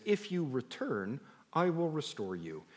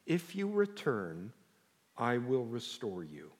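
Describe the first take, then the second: First: If you return said slowly, I will restore you dropping gently; a first careful take of the verse; a measured first reading. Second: If you return stretched out slowly, with a lift on you, then I will restore you soft and slow; a slow repeat to press the verse home; slow, weighty repeat. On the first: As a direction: lay the verse out calmly. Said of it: "the best way to say it is". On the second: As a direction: let every word land for the room. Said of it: "the only thing I want everyone in the room to hear". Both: Shown as a demonstration.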